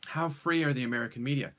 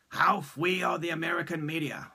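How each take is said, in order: First: The r in 'free' is clearly pronounced. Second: The r in 'free' is softened, like a w. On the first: The speaker calls it right. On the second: The speaker calls it wrong.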